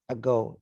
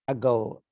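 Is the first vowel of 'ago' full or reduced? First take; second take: reduced; reduced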